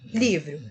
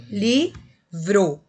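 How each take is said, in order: First: Said in the usual way. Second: Livro split into li, vro, louder with a pause between; syllable by syllable. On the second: Shown as a demonstration. Teacher shows consonants sharing a syllable, livro said syllable by syllable. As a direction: say livro as two separate, emphatic syllables. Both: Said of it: "quando eu separo a sílaba".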